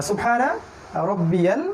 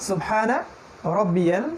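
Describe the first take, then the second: Both takes have the same delivery.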